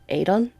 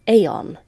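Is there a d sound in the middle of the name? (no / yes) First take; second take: yes; no. First: The name is said with a d sound. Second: The name is said without a d sound. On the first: This is a common anglicized pronunciation. "some people do opt to pronounce with the D" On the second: This is the authentic Irish pronunciation. "the actual Irish pronunciation"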